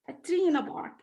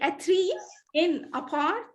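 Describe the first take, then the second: First: A y sound links tree smoothly into in. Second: The words are separate with no added y sound. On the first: The speaker calls it right. "we add an extra uh, sound, which is the sound yeah" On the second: The speaker calls it wrong. "this is not connected speech"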